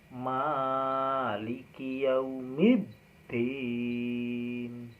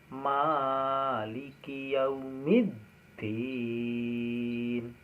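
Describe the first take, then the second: The two takes are said the same way.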